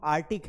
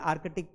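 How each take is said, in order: First: आर्टिक with no k before the t; silent c. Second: आर्कटिक with the k before t sounded; common mispronunciation. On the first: Teacher correcting students, आर्टिक as "ar-tik". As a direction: go straight from r to t in आर्टिक. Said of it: "सी को उच्चारित नहीं करना". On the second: Teacher showing what students usually say, आर्कटिक with "ark". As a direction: sound both k's in आर्कटिक. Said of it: "आर्कटिक पढ़ते हैं". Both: Shown as a demonstration.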